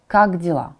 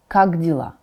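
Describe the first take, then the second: No difference in how they are said.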